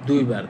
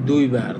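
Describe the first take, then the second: The two takes are said the same way.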